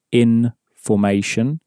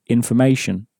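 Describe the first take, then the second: First: "in formation" as two separate words; "in formation" split, with a full, unreduced "for"; different emphasis. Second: Said in the usual way. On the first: Shown as a demonstration. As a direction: leave a small gap between "in" and "formation". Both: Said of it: "There is a different emphasis".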